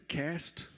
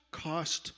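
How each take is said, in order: First: "Cast?" with a flat American a, kast, rising. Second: "Cast" with a broad British ah vowel, kahst. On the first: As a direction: try "Cast?" as an American would, flat a and a questioning lift. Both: Shown as a demonstration. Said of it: "am I saying it like an American?".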